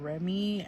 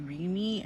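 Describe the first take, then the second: First: The stress is on the last syllable. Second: The stress is on the first syllable. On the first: This is how others say the name. The speaker calls it right. "and not Remy ... and not the Y" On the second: This is how the speaker habitually says the name. The speaker calls it wrong. "I would say Remy ... I would emphasize the E"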